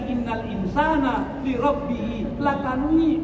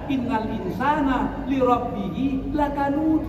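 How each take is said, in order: First: The final word ends with an i sound. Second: The final word ends with a clear d sound. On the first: The speaker calls it wrong. "karena kita orang Minang kita tukar jadi" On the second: The speaker calls it right. "baca saja"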